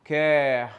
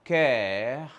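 The two takes are said the same way.

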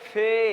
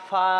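First: The name ends in an 'e' vowel. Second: The name ends in an 'a' vowel. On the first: The speaker calls it wrong. "আমরা পড়ে ফেলি ফে, আসলে ফেটা সঠিক নয়" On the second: The speaker calls it right. "ফা ফা"

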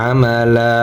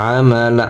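No difference in how they are said.

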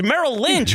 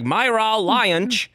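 First: The first word is said like Merrill. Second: The first word is said like Myra. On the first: The speaker calls it right. "dude, it's Merrill Lynch" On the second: The speaker calls it wrong. "Myra Lynch shall be shut down"

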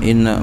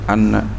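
First: The word begins with an 'i' vowel. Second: The word begins with an 'a' vowel. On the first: "Wal kasri dan kasrah" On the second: "Bil fatih dengan fatah bacanya itu"

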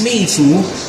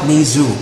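First: The name is said with a Chinese pronunciation. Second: The name is said with a simplified English pronunciation. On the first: This is how it is said in its home country. "in China, it's Meizu" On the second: This is how foreigners usually say it. "simplified, international version. Let's just call it Meizu"

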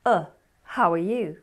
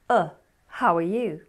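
First: The word 'are' is said in reduced form. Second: The same.

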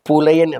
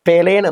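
First: The first vowel sounds like 'u'. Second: The first vowel sounds like 'e'. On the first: It means the rightful owners of the soil. The speaker calls it right. "പുലയൻ എന്നാണ്" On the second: The speaker calls it wrong. "പെലയൻ എന്നല്ല"

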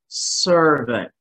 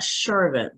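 First: The first syllable sounds like 'sir'. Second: The first syllable does not sound like 'sir'. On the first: The speaker calls it right. "but sir, servant" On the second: The speaker calls it wrong. "not servant"

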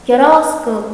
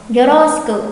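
The two takes are said the same way.

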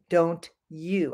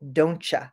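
First: The two words are said separately and clearly. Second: The two words blend together into one. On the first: The speaker calls it wrong. "I don't say don't you" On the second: The speaker calls it right. "I say don't you"

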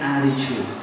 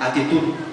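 First: The stress is on the first syllable. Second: The stress is on the last syllable.

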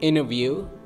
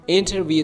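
First: The T after N is dropped. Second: The T after N is clearly pronounced. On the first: The speaker calls it right. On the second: The speaker calls it wrong.

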